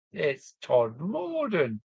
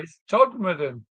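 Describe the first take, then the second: First: Todmorden mimicked slowly with a long, drawn-out MOR; mocking mispronunciation. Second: Todmorden said quickly, middle squashed to Tod-m'den; local pronunciation. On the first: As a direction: echo the outsider's Todmorden, stretching the middle syllable high. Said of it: "do you hear what he said?". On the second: Retold or imitated. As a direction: correct it to a higher, local Todmorden with stress on Tod. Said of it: "Daft bugger".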